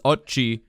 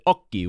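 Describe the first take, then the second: First: The word is read as English spelling suggests. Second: The word follows Italian pronunciation rules. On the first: The speaker calls it wrong. "He says "occhi" because the word is spelled O C C H I" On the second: The speaker calls it right. "in Italian, you pronounce it occhi"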